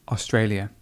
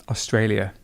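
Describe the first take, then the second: No difference in how they are said.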